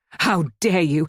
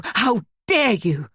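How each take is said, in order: First: Outraged. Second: Each word drawn out, higher; slower, higher outrage. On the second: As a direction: dare hammered with rising outrage. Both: A narrator's reading. Outraged repeated protest.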